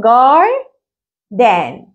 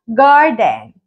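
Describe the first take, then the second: First: Garden very slowly broken as GAR, pause, DEN, first part rising, second falling; split into syllables. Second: Said in the usual way. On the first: Shown as a demonstration. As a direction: stretch GAR upward, pause, then drop DEN. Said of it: "هنقسمها إزاي؟". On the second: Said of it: "كلمة زي كلمة الحديقة بقولها garden".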